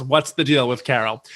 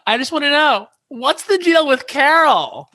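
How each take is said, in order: First: Said in the usual way. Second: High gushing question. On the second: Retold or imitated. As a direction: squeal the question like a tipsy fan. Drunk fan's question at mic.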